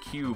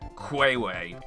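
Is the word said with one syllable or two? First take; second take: one; two. First: The word is said as one short syllable. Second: The word is said as two syllables, kway-way. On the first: The speaker calls it right. "you just pronounce it Q" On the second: The speaker calls it wrong. "I would pronounce it like Quayway, which is just the weirdest thing"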